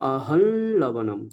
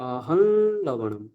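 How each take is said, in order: Both takes have the same delivery.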